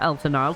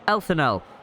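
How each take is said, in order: First: The name sounds like Elton Isle. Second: The name sounds like Elthanel. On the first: The speaker calls it wrong. "decided to go with a mispronunciation instead" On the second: The speaker calls it right. "this is how you pronounce it"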